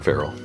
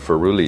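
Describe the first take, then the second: First: The word ends with a plain 'l' sound. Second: The word ends with an extra 'ee' sound. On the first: The speaker calls it right. "the wrong way of saying feral" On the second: The speaker calls it wrong. "Feruli is the wrong way of saying feral"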